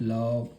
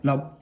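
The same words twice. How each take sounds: First: The word is said very softly. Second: The word is said loudly and forcefully. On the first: The first heart sound is faint. "बहुत soft लब" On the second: The first heart sound is louder than normal. "Loud लब लब लब इस तरह से"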